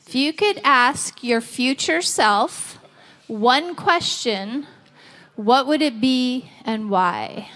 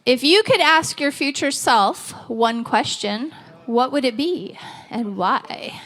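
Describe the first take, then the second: First: Slowed down, spelling the question out; slow repeat. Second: Said in the usual way. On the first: Shown as a demonstration. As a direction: repeat it slowly for the room. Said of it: "first asked at normal pace". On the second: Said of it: "repeats the question slowly".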